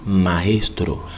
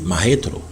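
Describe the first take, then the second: First: The s sound is pronounced clearly. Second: The s sound is dropped, Dominican style.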